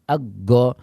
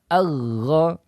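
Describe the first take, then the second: First: The consonant is a hard stop like G. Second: The consonant is a flowing, continuous friction sound. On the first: The speaker calls it wrong. "seolah-olah dia mengucapkan huruf G Indonesia ya. Ini adalah ucapan yang keliru" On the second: The speaker calls it right. "Ghain memiliki sifat rakhwah"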